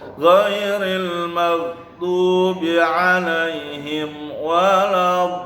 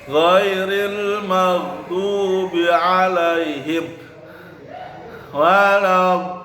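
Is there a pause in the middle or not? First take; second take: no pause; pause. First: It flows without a pause mid-phrase. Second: It stops with a pause mid-phrase.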